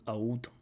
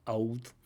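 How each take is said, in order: First: The L sound is dropped, vowel-like. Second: The same.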